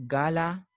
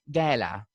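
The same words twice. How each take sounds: First: "gala" said GAH-la, open ah; British pronunciation. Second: "gala" said GAL-a, first vowel as in cat; American pronunciation. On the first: Teacher showing the British form, "gala" with ah. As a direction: open the first vowel of "gala" to ah. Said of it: "A sound is there". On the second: Teacher showing the American form, "gala" with ae. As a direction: use ae in the first syllable of "gala". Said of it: "They say gala". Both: Shown as a demonstration.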